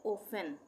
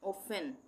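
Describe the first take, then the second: No difference in how they are said.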